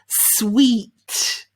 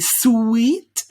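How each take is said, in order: First: It is said as one smooth syllable. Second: It is split into two syllables, oo then eat. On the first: The speaker calls it right. "We say sw, sw, sweet" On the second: The speaker calls it wrong. "there's no oo and eat there. We don't say sweet"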